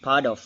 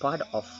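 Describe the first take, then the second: First: The t sounds like a soft d. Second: The t is said as a clear t. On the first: The speaker calls it right. "We delete the, the sound T, become the sound D" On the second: The speaker calls it wrong. "not part of"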